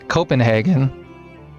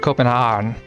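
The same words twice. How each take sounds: First: The final vowels are fully pronounced. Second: The final vowels are skipped.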